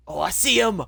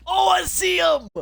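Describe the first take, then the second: First: Excited. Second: Much higher, loud, drawn-out shout; full-voiced shriek of recognition; shrieked repeat. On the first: Spots the rat. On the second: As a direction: yell it out the second time, slowed and stretched. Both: Real, not acted.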